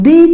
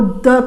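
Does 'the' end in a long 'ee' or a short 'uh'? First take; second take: long ee; short uh. First: The word ends in a long 'ee' vowel. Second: The word ends in a short 'uh' vowel. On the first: "T H E को दी करके sound करेंगे" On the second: "T H E को द करके sound करेंगे"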